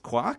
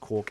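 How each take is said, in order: First: The vowel rhymes with the word mark. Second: The vowel does not rhyme with mark. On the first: It follows the rhyme in the source line. "which makes you think it should be pronounced quark" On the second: It is the pronunciation the coiner preferred. "even though it looks like it's meant to rhyme with the word"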